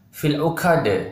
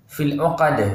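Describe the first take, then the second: First: The q sound is released with audible breath. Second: The q sound is clear with no breath. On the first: The speaker calls it wrong. "bukan fil uqad. Tidak boleh ada anginnya ya" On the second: The speaker calls it right. "Tidak boleh keluar angin ya"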